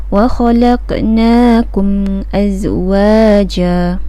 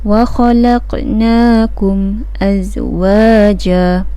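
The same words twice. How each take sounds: The two takes are said the same way.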